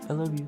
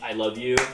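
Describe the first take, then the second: First: It is said quietly and softly. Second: It is said loudly and openly.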